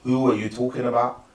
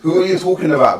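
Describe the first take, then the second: First: It is said in the speaker's usual accent. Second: It is said in a put-on accent.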